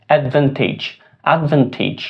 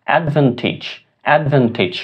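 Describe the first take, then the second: Both takes have the same delivery.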